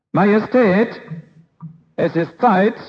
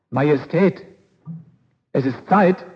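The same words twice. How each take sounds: First: Servant calling louder and higher; much louder. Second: Said in the usual way. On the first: Acted. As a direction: raise the voice to rouse the king. (Diener ruft den König deutlich lauter) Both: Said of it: "jetzt schon viel lauter".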